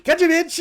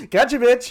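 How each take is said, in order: First: Much higher, louder triumphant jeer; gloating taunt. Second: Much higher and louder mocking jeer; gloating taunt. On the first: Retold or imitated. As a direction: crow it with a smirk. Voicing Nadar's gloat. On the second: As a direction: rub it in with a sneer. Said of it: "He's like".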